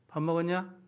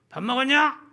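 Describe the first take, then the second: First: It is said dryly, with no emotion. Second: It is said with force, sounding angry. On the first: The speaker feels empty and uncaring. "감정을 쏙 빼고요. 무미건조하게" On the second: The speaker is angry. "조금 더 힘줘서"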